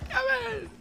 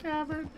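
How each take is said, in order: First: Much higher, pushed call of the name; exaggerated mock call; hammed-up NPC call. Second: Mock higher drawn-out call of the name; a light imitation of the stranger's call; imitating NPC's call. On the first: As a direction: overdo the character's call for laughs. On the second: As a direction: copy the game character calling out. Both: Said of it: "Why does he say it like that?".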